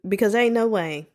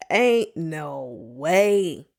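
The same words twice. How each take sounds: First: Said in the usual way. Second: Drawn-out, very slow ain't no way; slow emphatic. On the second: Real, not acted. Host insisting to listeners, very slow and drawn out. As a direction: stretch every word in disbelief.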